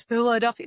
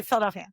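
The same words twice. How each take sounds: First: Philadelphia with its second vowel kept; full Philadelphia. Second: Philadelphia squeezed to "Fill-DEL-fia"; shortened local Philadelphia. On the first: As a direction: say "Fill-uh-DEL-fee-uh" for Philadelphia. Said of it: "nobody says Philadelphia". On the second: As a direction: swallow the second vowel of Philadelphia. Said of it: "They say Philadelphia". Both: Shown as a demonstration.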